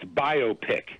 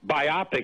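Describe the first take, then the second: First: The stress falls on the first syllable. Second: The stress falls on the second syllable. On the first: The speaker calls it right. "it's biopic. You know, biography, picture" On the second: The speaker calls it wrong. "It's not biopic"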